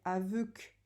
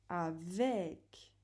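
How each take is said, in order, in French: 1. La deuxième voyelle est un son 'eu' arrondi. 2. La deuxième voyelle est un son 'è' ouvert. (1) "Sinon, on dirait aveuc. Mais nous, on ne dit pas aveuc" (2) "on dit avec"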